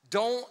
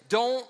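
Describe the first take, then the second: No difference in how they are said.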